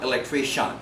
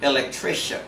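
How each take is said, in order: First: The ending is not a soft shen sound. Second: The ending is a soft shen sound. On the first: The speaker calls it wrong. "not electrician" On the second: The speaker calls it right. "must be pronounced as soft shen"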